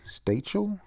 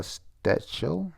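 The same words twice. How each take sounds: First: Stachel with a long A, as in "state"; second pronunciation try. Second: Stachel with a short A, as in "stat"; tentative pronunciation. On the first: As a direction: try "Stachel?" as STAY-chel, pitched up. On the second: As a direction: ask "Stachel?", short A, pitch rising. Trying out an unfamiliar name. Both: Real, not acted.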